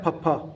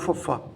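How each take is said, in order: First: The first sound is a puffed sound from closed lips. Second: The first sound is an f made with lip and teeth. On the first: The speaker calls it right. "ਜਦੋਂ ਆਪਾਂ ਆਪਣੇ ਬੁੱਲਾਂ ਨੂੰ ਜੋੜਦੇ ਹਾਂ" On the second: The speaker calls it wrong. "ਨਾ ਕਿ"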